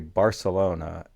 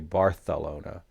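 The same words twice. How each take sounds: First: The middle consonant is an s sound. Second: The middle consonant is a th sound.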